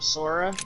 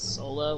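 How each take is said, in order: First: The middle consonant is a clear English R. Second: The middle consonant sounds like an L. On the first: This is how people in the USA say the name. The speaker calls it wrong. "everybody was calling him Sora" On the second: This is how the name is said in Japanese. The speaker calls it right. "in the real Japanese pronunciation is Sola"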